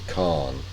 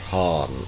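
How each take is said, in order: First: The word starts with a hard K sound. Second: The word starts with a soft H sound. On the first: The title does not refer to Mongols. "When I when it's not, I pronounce it Khan" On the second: The title refers to Mongols. "when it's it refers to Proto-Mongols and Mongols, I pronounce it Han"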